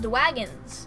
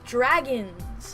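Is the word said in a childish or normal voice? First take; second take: childish; normal. First: It is said in a weird childish voice. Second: It is said in a plain normal voice.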